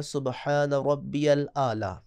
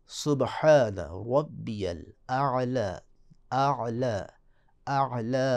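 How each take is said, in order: First: الاعلی with ء and ع merged into a plain ala; wrong merged ala. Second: الاعلی slow, ء and ع kept separate; right tajweed take of اعلی; correct hamza and ain. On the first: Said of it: "اعلی غلط ہے". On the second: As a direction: split ء from ع in اعلی. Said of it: "حمزہ کو علیحدہ پڑھنا ہے". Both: Shown as a demonstration.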